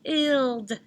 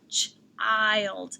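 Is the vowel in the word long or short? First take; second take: short; long. First: The vowel is short, as in chill. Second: The vowel is long, as in eye. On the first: The speaker calls it wrong. "I would sound it out with the short sound" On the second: The speaker calls it right. "I can try the long sound next"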